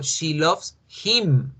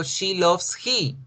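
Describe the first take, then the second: First: Slow, careful "she loves him" with a falling end on "him"; slow teacher demo of the right form; slow correct example. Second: Slow, careful "she loves he" with a falling end on "he"; slow teacher demo of the wrong form; slow wrong example. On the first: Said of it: "yo digo". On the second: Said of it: "pero yo no digo". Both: Shown as a demonstration.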